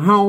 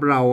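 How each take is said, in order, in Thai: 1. คำนี้ขึ้นต้นด้วยเสียง h 2. คำนี้ขึ้นต้นด้วยเสียง r (1) "อันนี้มันเป็นกำเมืองนะครับเป็นกำเมืองก็ออกว่าเฮา" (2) "ถ้าเป็นภาษาไทยเพิ่นเรานะครับ...เราออกเสียงรอ"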